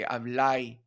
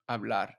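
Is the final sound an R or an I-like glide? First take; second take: I glide; R. First: It ends in an I-like glide, Cibao style. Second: It ends in a standard R sound.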